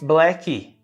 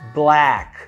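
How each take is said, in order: First: An extra vowel sound follows the final consonant. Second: The word ends cleanly on the consonant. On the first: The speaker calls it wrong. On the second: The speaker calls it right.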